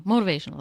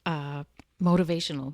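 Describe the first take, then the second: First: Motivational said louder and firmer; emphatic correction. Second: Said in the usual way. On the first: Real, not acted. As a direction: land on Motivational with a louder push. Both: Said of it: "That's what I want".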